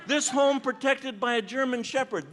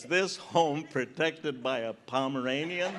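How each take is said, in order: First: Higher, proud read of a yard sign; approving recitation of a warning sign. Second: Slow, laughing read of a yard sign; slow amused recitation of a warning sign; mock sign reading. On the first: Retold or imitated. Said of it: "That's a dog". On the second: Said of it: "a sign in your yard that says".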